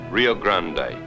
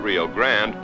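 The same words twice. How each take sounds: First: The name is pronounced the Spanish way. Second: The name is pronounced the English way. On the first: This is how Texans downstream say it. "Texans use the Spanish pronunciation" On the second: This is how locals at the border say it. "Here at the New Mexico-Texas border, they pronounce it"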